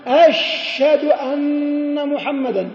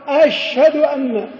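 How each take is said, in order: First: أشهد said slowly as ashshad, the h dropped into a doubled sh; swallowed h. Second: أشهد said slowly with the h heard before the d; slow corrected ash-hadu. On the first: Teacher imitating muezzins who drop the h. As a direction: merge the h of أشهد into the sh. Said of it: "إدغام الهاء من أشهد في الشين". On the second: Teacher contrasting the swallowed h with proper speech. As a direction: keep the h in أشهد distinct. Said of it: "شد الشين فعل لها شدة". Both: Shown as a demonstration.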